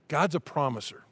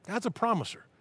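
First: Said in the usual way. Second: "God's a promiser" lifted higher and softer; raised, hushed echo of "God's a promiser"; higher, softer repeat. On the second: Real, not acted. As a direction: repeat "God's a promiser" high and gentle for effect. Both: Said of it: "repeated line".

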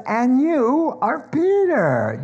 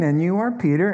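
First: Slow, high and loud "Peter", drawn out; Jesus's emphatic answer, every word weighed; emphatic reply. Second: "are" leaned on, lifting at the end; quick repeat, stressing "are" with a rise; light echo of the line, rising on "are"; lighter retelling. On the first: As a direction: land "And you are Peter" slowly and high as Jesus answering. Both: Acted. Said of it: "Do you see that back and forth".

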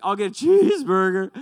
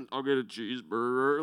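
First: Put-on higher, louder cracked teen voice ordering "cheeseburger"; a squeaky, too-loud "I'll get a cheeseburger" from a flustered boy; nervous cracking voice. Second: Deliberately deepened "I'll get a cheeseburger"; voice made lower. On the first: Flustered teen blurting his order at the counter, high and loud. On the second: Retold or imitated. Teen retrying his order in a forced deeper voice. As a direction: drop the voice lower on "cheeseburger" to sound older. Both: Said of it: "make my voice lower".

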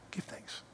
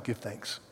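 First: "Give thanks." breathed in a soft whisper. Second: Said in the usual way. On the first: Shown as a demonstration. Repeats scripture then whispers it.

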